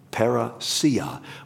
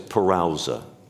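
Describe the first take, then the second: First: The word ends with a '-see-a' sound. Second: The word ends with a short '-sa' sound. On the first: The speaker calls it right. "the proper way is parousia" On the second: The speaker calls it wrong. "I've always pronounced that Greek word there ... as parousa ... that's probably wrong"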